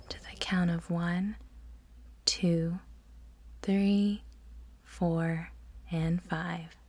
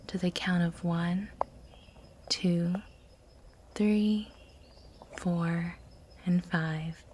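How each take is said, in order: Both takes have the same delivery.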